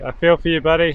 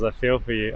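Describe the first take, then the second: First: Louder, higher, sent across to a buddy; raised voice, commiserating with a mate; calling out. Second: Said in the usual way. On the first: Real, not acted. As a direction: call your sympathy over the water. Calls sympathy out to angler.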